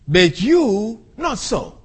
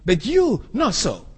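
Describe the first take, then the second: First: "you" stressed, slow, set apart; slow, careful literal rendering, stress on "you"; emphatic literal reading. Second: Said in the usual way. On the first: Shown as a demonstration. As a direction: pronounce "But you not so" slowly, leaning on "you". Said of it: "the Greek reads". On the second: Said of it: "That's where it comes".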